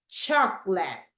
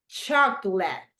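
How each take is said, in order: Both takes have the same delivery.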